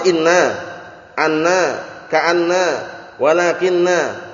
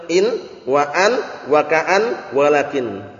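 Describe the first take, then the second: First: "inna, anna, ka'anna, wa lakinna" with each n doubled; original heavy forms. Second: "In, wa an, wa ka'an, wa lakin" each ending on a single n; "In, wa an, wa ka'an, wa lakin" with no tashdid; lightened forms. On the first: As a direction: hold every nn, then sound the final a. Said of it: "Bukan, awalnya kan". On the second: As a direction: drop every doubling and final a. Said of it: "kalau diperingan bacanya bagaimana". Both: Shown as a demonstration.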